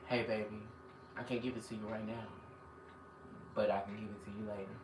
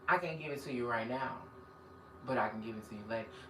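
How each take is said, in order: First: It is said in a smooth Jodeci-style crooning voice. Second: It is said in his normal speaking voice.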